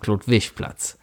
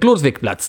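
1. Die Endung wird im Kölner Dialektstil weicher gesprochen. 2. Die Endung wird im einfachen Standarddeutsch gesprochen. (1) "da hat die Frau halt die Straße angesagt wie Klodwischplatz" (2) "die Computeransage macht halt den Klodwigplatz draus"

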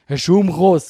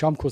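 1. Es wird mit schweizerdeutscher Aussprache gesagt. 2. Es wird mit standarddeutscher Aussprache gesagt. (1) "das klingt, als hättest du gerade einen Schlaganfall bekommen" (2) "du kannst in der Schweiz auch nicht Schaumkuss sagen"

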